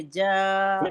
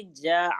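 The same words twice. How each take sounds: First: جاء drawn out, ending on an easy hamza; gentle hamza. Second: جاء with the hamza pressed into an ain; stressed hamza, wrong. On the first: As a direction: say جاء with no stress on the final ء. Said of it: "بہت آرام سے بولیں گے". (جاء آرام سے، ہمزہ ہلکا) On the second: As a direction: squeeze the end of جاء into a throaty ع. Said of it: "سٹریس دیں گے تو عین کی ادائی ہو جائے". (جاء کے ہمزہ پر زور، عین جیسا) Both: Shown as a demonstration.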